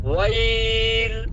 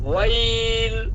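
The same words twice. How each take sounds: The two takes are said the same way.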